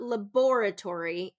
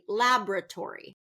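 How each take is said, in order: First: It is said with a British pronunciation. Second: It is said with an American pronunciation. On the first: The speaker calls it wrong. "This is a very British pronunciation. So it's not laboratory" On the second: The speaker calls it right. "It's going to be laboratory"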